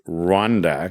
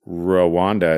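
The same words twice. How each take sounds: First: The R runs straight into the W. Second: A vowel is heard between the R and W. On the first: This is closer to how the name is spelled. The speaker calls it right. "The better way is Rwanda, because it's actually R W" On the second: This is the usual local way at home. The speaker calls it wrong. "is how we would say it in Canada"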